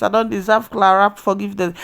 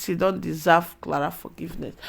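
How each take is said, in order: First: Quoting the father. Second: Said in the usual way. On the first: Retold or imitated. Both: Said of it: "Even Jonathan used his mouth to say it".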